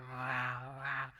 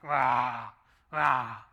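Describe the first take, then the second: First: A mild spoken wow wow growl; stomach growl imitation. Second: A much louder, lower booming wow wow; loud stomach growl imitation. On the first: Preacher mimics a normal stomach growl, mildly. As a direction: imitate a small stomach rumble. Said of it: "you hear". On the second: Preacher mimics a very hungry stomach, booming. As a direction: roar it like a starving stomach. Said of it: "when I'm really hungry, it's like".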